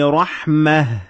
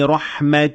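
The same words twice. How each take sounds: First: The word ends with an h sound. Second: The word ends with a t sound. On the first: The reader pauses after this word. "when I stopped at it, I had to pronounce it as ha" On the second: The reader continues without pausing. "when I keep on reading, I pronounce it as ta"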